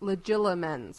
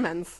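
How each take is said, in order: First: The third consonant is an L sound. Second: The third consonant is a T sound. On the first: The speaker calls it right. "It's legilimens with an L" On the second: The speaker calls it wrong. "We're all pronouncing this wrong"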